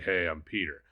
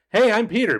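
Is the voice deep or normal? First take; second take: deep; normal. First: The voice is deeper and more monotone. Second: The voice is at its normal pitch. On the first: "a little bit deeper, maybe, or a little bit more monotone" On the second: "instead of being like"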